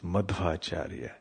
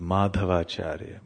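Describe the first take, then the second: First: No vowel follows Madh. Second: An extra vowel follows Madh. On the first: The speaker calls it right. "but it is Madhvacharya" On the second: The speaker calls it wrong. "devotees also call him as Madhavacharya"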